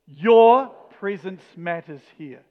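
The stress falls on the word 'your'. "each time we're going to put the emphasis on the next word"

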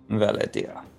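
It is said in a put-on accented character voice.

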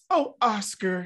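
It is said in a happy, pleased tone.

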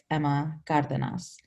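The name is said with a Spanish pronunciation. This is the original, technically correct form of the name. "technically how you say it"

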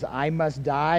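It is a resigned statement, falling at the end.

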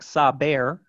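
It is said with English pronunciation. "if you were going to pronounce it in English"

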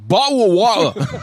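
It is said in a British accent.

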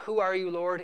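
It sounds surrendering and submissive.

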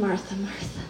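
It is said in a loving, tender tone.

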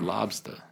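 The final R is dropped, ending in ah. "How would a Bostoner say it? They say lobster"

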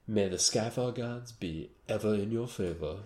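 It is said in a put-on accent. The speaker calls it right. "He likes to put an accent on it"

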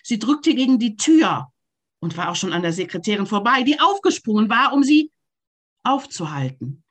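It is read in arcs with shifted stresses.

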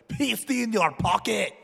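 It is said in an attempted German accent.

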